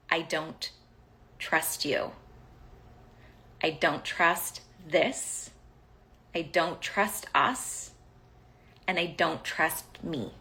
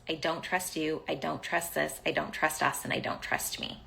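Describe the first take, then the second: First: Halting and deliberate, long pauses between phrases; measured, spaced-out delivery; slow, weighty confession. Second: Softer run-through without pauses; quick recital. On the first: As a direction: let each admission land separately. Voices her unspoken message, slowly. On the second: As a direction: rattle the list off quietly, tailing away. Recites same message in running list. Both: Retold or imitated.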